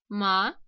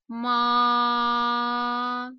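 First: The pitch rises like a question. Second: The pitch stays level and long. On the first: "Второй тон будет звучать как ма" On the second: "Первый тон звучит ровно, долго и плавно"

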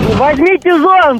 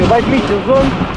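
First: It is shouted loudly. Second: It is said quietly.

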